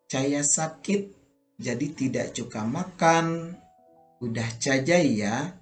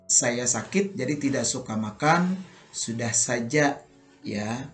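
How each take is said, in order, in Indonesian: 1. Bunyi s diucapkan sebagai ch. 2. Bunyi s diucapkan sebagai s biasa.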